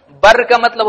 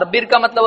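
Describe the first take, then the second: First: بر said "barr", short open a. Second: بر said "birr", short i. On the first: (بر کو زبر سے "بَرّ" پڑھیں) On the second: (بر کو زیر سے "بِرّ" پڑھیں) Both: Shown as a demonstration. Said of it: "بہت الگ ہوتا ہے".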